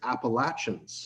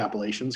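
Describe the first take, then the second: First: The middle consonant is a hard ch sound. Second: The middle consonant is a soft sh sound. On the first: This is how it is said in Virginia. "They pronounce it Appalachians. ... it's like a hard ch sound instead of a sh" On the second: This is how it is said in Canada. "I say Appalachians because that's what I grew up with"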